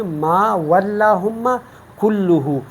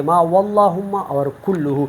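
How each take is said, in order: First: "واللہم" and "کلہ" with light, thin Ls; thin lam. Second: "واللہم" and "کلہ" with heavy, dark Ls; wrongly full lam. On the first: Teacher models the correct reading, thin L in "واللہم" and "کلہ". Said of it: "ہم اس کو باریک پڑھیں گے". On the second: Teacher shows what to avoid, heavy L in "واللہم" and "کلہ". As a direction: mistakenly fill out the L in "واللہم" and "کلہ". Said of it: "ہم اس طرح نہیں پڑھیں گے". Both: Shown as a demonstration.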